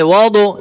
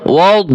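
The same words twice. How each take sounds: First: "ওয়াও দো" with an added vowel after the d; wrong qalqalah echo. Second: "ওয়াও" as "wad", held closed on the d; no qalqalah. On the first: Teacher showing the mistake, "ওয়াও দো" with an echoed d. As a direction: bounce the d of "ওয়াও দো" open into "do". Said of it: "এভাবে করা যাবে না". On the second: Teacher showing the correct "ওয়াও", d without qalqalah. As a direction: end "ওয়াও" on a heavy d with no echo vowel. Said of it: "কলকলা করা যাবে না". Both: Shown as a demonstration.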